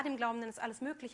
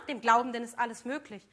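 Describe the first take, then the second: First: Said in the usual way. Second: A mildly louder, goading tempter's line. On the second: Acted. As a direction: egg him on like the tempter. Tempter's voice quoting scripture. (leicht lauter, verführerisch drängender Versucher)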